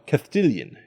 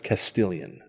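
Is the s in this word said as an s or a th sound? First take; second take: th; s. First: The s is said with a th sound. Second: The s is said with an s sound. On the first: "the prevalence of the sound th in Spanish" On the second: "instead of"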